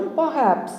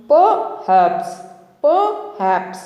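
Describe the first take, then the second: First: Perhaps as po-HAPS, no R; silent R. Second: Perhaps split as PO, pause, HAPS; chunked pronunciation. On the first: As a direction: hold back the R in perhaps. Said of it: "ఆర్ అనేది మన గొంతులోనే ఆగిపోవాలి". (perhaps లో ఆర్ బయటికి రాకుండా) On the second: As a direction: break Perhaps in two, high first piece. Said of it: "విడదీసి పలకడం ద్వారా ఈజీగా". (Perhaps ను విడదీసి పలకడం) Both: Shown as a demonstration.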